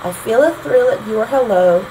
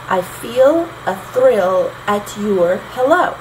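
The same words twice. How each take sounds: First: Said in the usual way. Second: Slow, foot by foot: i FEEL a THRILL at YOUR helLO; iambic scansion. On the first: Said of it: "still have that short, long". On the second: Shown as a demonstration. Teacher scanning own lyric in four feet, iambic stress. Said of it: "I had four feet".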